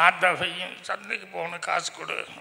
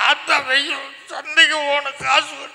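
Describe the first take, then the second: First: It is said in a plain, ordinary voice. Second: It is said in a more childlike voice. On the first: "முதல் தடவை பேசுகிறது" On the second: "இன்னும் கொஞ்சம் குழந்த மாதிரி"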